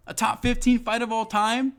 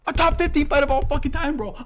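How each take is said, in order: First: High, rising incredulous question; indignant disbelief. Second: Very high, loud outraged shout; losing his mind. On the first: Fan reminding viewers of a great fight, indignant disbelief. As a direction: ask it in raised, indignant disbelief. Indignant, before shouting it again. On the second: Fan losing his mind over a forgotten fight, outraged shout. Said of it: "I'm really gonna fucking lose my mind". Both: Real, not acted.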